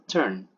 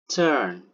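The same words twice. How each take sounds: First: The vowel is short. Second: The vowel is held long. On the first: "pronounce it as the short version" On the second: "pronounced with longer uh"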